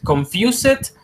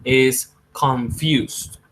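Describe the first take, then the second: First: "Confused" said wrongly with an s sound and an extra vowel, rising high; wrong pronunciation. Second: "confused" slowly with a voiced z at the end; correct pronunciation. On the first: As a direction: mispronounce "Confused" as kon-fyu-sit. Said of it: "No, it's not confused". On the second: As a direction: model "confused" carefully, ending in a z. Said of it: "it's not confused". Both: Shown as a demonstration.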